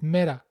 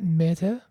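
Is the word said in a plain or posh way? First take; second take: plain; posh. First: The word is said in a plain way. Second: The word is said in an over-posh way. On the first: The speaker calls it right. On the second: The speaker calls it wrong.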